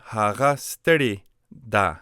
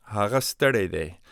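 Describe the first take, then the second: First: "steri" said slowly with a short i ending; teacher contrasts "steri" with "stere"; feminine form, steri. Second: "stere" said as stere-day, open e; teacher models "Hara stere de" for a boy; masculine form, stere. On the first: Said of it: "So stere changes to steri". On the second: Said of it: "masculine form". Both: Shown as a demonstration.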